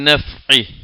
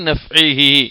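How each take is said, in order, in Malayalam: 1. വാക്ക് അവസാന 'hi' ഇല്ലാതെ ചെറുതായി നിൽക്കുന്നു. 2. വാക്ക് പൂർണ്ണമായി ഉച്ചരിച്ച 'hi' യോടെ അവസാനിക്കുന്നു. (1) "നമ്മളവിടെ നിർത്തുമ്പോൾ എങ്ങനെ ഓതിയാൽ മതി?" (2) "അത് കൂട്ടി ഓതുകയാണെങ്കിൽ"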